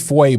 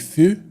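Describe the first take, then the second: First: The vowel sounds like the one in boy. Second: The vowel sounds like the one in few. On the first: The speaker calls it wrong. "A lot of people say Foy" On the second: The speaker calls it right. "but it's actually Few, like in French"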